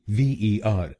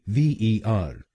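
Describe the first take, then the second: Both takes have the same delivery.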